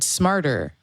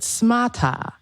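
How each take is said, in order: First: The final r sound is clearly pronounced. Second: The final r sound is dropped. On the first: "with their English lessons or their native English fluency, uh, American style fluency" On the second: "they were coached to pronounce it smata"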